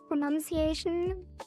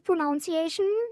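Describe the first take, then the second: First: The second syllable sounds like 'nun'. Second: The second syllable sounds like 'noun'. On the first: The speaker calls it right. "like without the O" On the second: The speaker calls it wrong. "I always thought it was pronunciation for my entire life"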